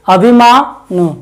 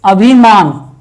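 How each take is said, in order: First: अभिमानु read with a trailing u and no stress; awkward demo of अभिमानु; unnatural reading. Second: अभिमान said cleanly, stress at the start on अभि; proper stress. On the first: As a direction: say अभिमानु clumsily, like a wrong example. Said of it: "अस्वाभाविक सा लग रहा है". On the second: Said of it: "अगर हम इसको ऐसे पढ़ें". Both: Shown as a demonstration.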